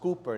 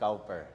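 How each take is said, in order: First: The first syllable rhymes with 'too'. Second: The first syllable rhymes with 'now'. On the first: The speaker calls it right. "it's pronounced Cooper" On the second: The speaker calls it wrong. "not Cowper"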